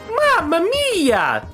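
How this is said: It is said in a Mario voice.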